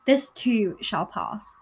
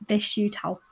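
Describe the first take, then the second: First: Slow, deliberate "This too shall pass" with a clear "too"; careful correction. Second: "shoe" slipped out in place of "too"; tongue slip. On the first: Vlogger re-saying the quote carefully after tripping. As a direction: correct the slip, spacing each word of "This too shall pass". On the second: Vlogger quoting a saying, slipping on "shoe". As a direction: trips over "This shoe shall" saying "shoe" for "too". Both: Real, not acted. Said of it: "this, I cannot speak".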